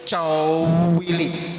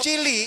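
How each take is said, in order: First: The word is said with a long stretched vowel. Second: The word is said with short, plain vowels. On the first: Very small. "kata-katanya diperpanjang" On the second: Small. "kalau ngomong cilik"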